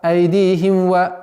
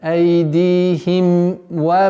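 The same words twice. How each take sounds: First: The m blends into the following w. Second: The m is finished before the w. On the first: The speaker calls it wrong. "нет" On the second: The speaker calls it right. "нужно договорить мим сукуном, а потом перейти в звук вау"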